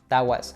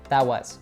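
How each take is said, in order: First: The T in 'that' is dropped. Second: The T in 'that' is dropped.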